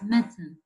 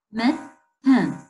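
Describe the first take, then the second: First: Said in the usual way. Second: "mitten" broken in two, a clear pause between syllables; split into syllables. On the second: Shown as a demonstration. Teacher showing two syllables to a class, "mitten" split apart. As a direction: sound out "mitten" as mit, then ten. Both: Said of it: "Two syllables with".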